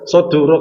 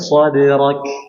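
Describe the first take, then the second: First: The d is released with a full u vowel. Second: The d is released with a light e vowel. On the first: The speaker calls it wrong. "Sodurok salah" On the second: The speaker calls it right. "Tipis dia"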